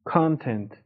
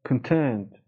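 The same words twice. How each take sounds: First: The stress is on the first syllable. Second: The stress is on the second syllable. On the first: It means amount. "وقتی استرس رو بیاریم رو بخش اول، معنی مقدار میده" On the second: It means satisfied. "محتوا و راضی، خوشنود"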